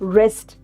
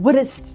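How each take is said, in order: First: No W sound is heard before the R. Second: A W sound is heard before the R. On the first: The speaker calls it right. "So wrist" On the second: The speaker calls it wrong. "not wrist"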